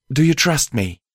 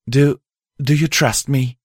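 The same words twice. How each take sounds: First: Higher mare voice, insistent; insistent repeat. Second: Higher mare voice, stumbling start; halting, tentative question in a raised pitch; hesitant question. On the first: Mare asking the host again for trust, insistent. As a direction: repeat the question firmly in a raised pitch. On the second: Mare asking the host for trust, hesitant. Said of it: "Pride said quietly". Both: Acted.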